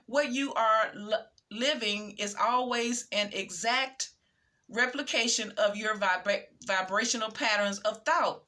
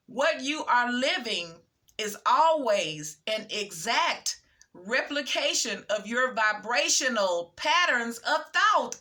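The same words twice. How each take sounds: First: Said in the usual way. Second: Slow, deliberate, each phrase set apart by a pause; emphatic repeat. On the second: Real, not acted. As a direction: read it again slowly, punching "always" and "exact". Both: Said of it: "let me say that again".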